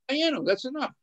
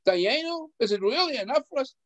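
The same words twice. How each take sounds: First: Dayenu, that's enough said flatly as a statement; declarative statement. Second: Dayenu pitched high and questioning; high questioning Dayenu, rising doubt. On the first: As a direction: state it as a settled fact, falling. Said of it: "it's enough for us in a declarative statement". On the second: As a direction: ask Dayenu as if it could not be enough. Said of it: "you read it like a question mark". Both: Shown as a demonstration.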